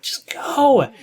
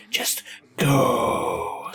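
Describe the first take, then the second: First: High whispered "Just go"; urging whisper. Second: Low, softer, whimpering "Just go"; pleading moan. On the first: Commentator whispering to the runner, urging whisper. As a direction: breathe it out, willing the player to run. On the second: Commentator pleading with the runner, mock whine. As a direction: beg it like a whine. Urging the player on screen. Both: Acted.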